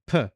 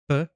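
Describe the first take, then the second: First: The p is said with a puff of air. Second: The p is said without a puff of air. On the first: "but phi was p" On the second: "pi was p"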